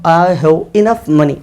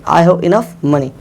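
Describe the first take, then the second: First: Slow dictation. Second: Said in the usual way. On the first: Shown as a demonstration. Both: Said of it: "तो मैं कहूँगा".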